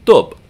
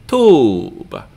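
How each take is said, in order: First: Tub with a quick, short vowel. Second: Tube with a long, held oo; long vowel. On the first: Teacher contrasting short against long, brief vowel in tub. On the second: Teacher contrasting long against short, drawn-out vowel in tube. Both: Shown as a demonstration. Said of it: "difference between the short and the long vowel".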